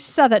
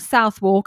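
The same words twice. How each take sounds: First: The O and W sounds are dropped. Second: The O and W sounds are pronounced. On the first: The speaker calls it right. "we say Southwark" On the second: The speaker calls it wrong. "not Southwark as I did"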